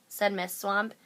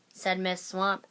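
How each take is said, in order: Both takes have the same delivery.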